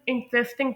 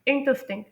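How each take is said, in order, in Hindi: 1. Stress दूसरे syllable पर है। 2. स्ट्रेस पहले सिलेबल पर है। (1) "कुछ लोग इंटरेस्टिंग प्रोनाउंस करते हैं, लेकिन नहीं, यहाँ पर जो एम्फेसिस है वो दूसरे सिलेबल पर नहीं" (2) "वो पहले सिलेबल पर है, यानी इंटरेस्टिंग"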